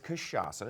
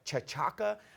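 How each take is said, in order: First: It is said with the Portuguese pronunciation. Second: It is said the way the spelling looks. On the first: The speaker calls it right. "It's how it's pronounced" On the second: The speaker calls it wrong. "it looks like chachaca"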